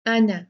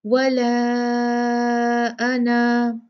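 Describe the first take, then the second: First: अना with the final alif short, not stretched; अना read on without lengthening the alif. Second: अना with the final alif held for two counts; madd when stopping. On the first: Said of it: "मैंने अलिफ नहीं पढ़ा". (अना, अलिफ छोटा, बिना लंबा किए) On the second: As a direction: pause on अना with the alif drawn out. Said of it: "मद असली करके दो काउंट करके रुकूंगी". (अना पर रुकते हुए अलिफ दो काउंट लंबा) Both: Shown as a demonstration.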